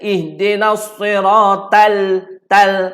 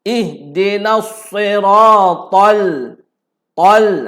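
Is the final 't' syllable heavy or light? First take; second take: light; heavy. First: The 't' syllable is light and thin. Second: The 't' syllable is heavy and rounded. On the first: The speaker calls it wrong. "dia baca ihdinas siratal tal. Salah" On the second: The speaker calls it right. "jangan ta tuan-tuan"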